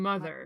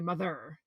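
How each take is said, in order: First: The stress falls on the first syllable. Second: The stress falls on the second syllable. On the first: The speaker calls it right. "You say" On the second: The speaker calls it wrong. "you don't say mother"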